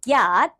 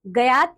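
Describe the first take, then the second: First: Said in the usual way. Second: "ज्ञात" split into "ga-yaat"; wrong pronunciation. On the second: Shown as a demonstration. Teacher showing pupils the error, "ज्ञात" mispronounced as "gayaat". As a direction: put a vowel after the g of "ज्ञात", "gayaat". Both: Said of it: "नहीं".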